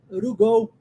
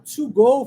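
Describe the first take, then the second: First: The T in 'to' becomes a quick R-like flap. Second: The T in 'to' is a clear T sound. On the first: "Posso pegar o T do to e transformar em R" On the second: "Ao invés de falar"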